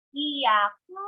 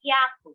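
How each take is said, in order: First: "Hiyaku" as three syllables, hi-ya-ku; separate syllables. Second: "yaku" as two quick syllables, hya-ku; contracted. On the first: Teacher repeating for learners to compare, "Hiyaku" uncontracted. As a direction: keep hi and ya apart in "Hiyaku". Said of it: "listen to me so you would know the difference". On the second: Teacher repeating for learners to compare, "yaku" contracted. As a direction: squeeze hi and ya into one in "yaku". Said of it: "making it sound like just one syllable". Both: Shown as a demonstration.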